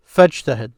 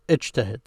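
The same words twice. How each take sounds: First: "fajtahid" run together as one word with no glottal stop; connected Arabic. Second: "ijtahid" starting on its own with the vowel i; separate Arabic word. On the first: Teacher shows the old connected Arabic reading of "fajtahid". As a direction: glide from "fa" straight into "jtahid" with no break. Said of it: "the way they used to speak in Arabic". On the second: Teacher says the command "ijtahid" alone to contrast it with "fajtahid". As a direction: begin "ijtahid" fresh, sounding the opening hamza. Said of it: "So notice I said ijtahid". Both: Shown as a demonstration.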